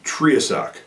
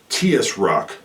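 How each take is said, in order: First: The added syllable comes right after the tr. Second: The added syllable comes right after the t. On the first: The speaker calls it right. "the T R kind of go together" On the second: The speaker calls it wrong. "You wouldn't say "tiasruck,""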